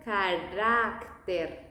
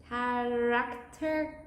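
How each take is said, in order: First: "carácter" said slowly with a flat tongue tap R; Spanish pronunciation. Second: "Character" said slowly the English way, curled R; English pronunciation. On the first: Teacher showing the Spanish "carácter" after English. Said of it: "the tongue is not that curved in the Spanish pronunciation". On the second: Teacher contrasting English "Character" with Spanish. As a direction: drawl out "Character" as an English speaker would. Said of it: "In English, it might sound like character". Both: Shown as a demonstration.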